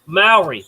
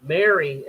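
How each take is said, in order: First: "Maori" said as MAO-ri, copying the friend; corrected pronunciation. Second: Says Maori as "Mary", like the woman's name; "Mary" with a plain English vowel; misheard name. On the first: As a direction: repeat "Maori" as MAO-ri, getting it right. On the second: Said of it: "No, no, no, Ma". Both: Real, not acted.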